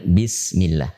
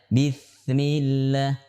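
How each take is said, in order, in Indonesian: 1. Huruf s itu desis s yang jelas. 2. Bunyi s mirip dengan huruf lain. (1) "Yang benar bismillah" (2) "Dibaca bismillah, bismillah. Tidak boleh"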